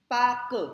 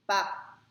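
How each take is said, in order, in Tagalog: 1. Hinahati ito sa dalawang pantig. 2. Isang pantig ito, walang r. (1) "hatiin nila sa dalawang syllables" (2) "silent R"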